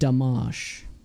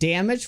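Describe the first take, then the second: First: It is said as read from the spelling. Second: It is said the usual English way.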